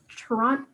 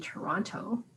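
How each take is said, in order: First: The final T sound is dropped entirely. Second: The final T sound is clearly pronounced. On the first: This is how locals say it. The speaker calls it right. "the last T is silent. It's like Toronto" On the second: This is how outsiders say it. The speaker calls it wrong. "somebody from Toronto won't say Toronto"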